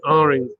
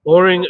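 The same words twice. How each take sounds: First: "Aring" with an open "ah"; contrasted pronunciation. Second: "Oring" with a rounded "or"; contrasted pronunciation. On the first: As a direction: demonstrate "Aring" as "ah-ring", not "or". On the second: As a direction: demonstrate "Oring" as "or-ring", not "ah". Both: Shown as a demonstration. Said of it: "totally different things".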